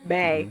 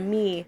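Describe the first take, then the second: First: The vowel sounds like the one in 'day'. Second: The vowel sounds like the one in 'see'. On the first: It copies how the songwriter pronounced the word. "it's May" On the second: It is the usual way to say the word. "instead of me"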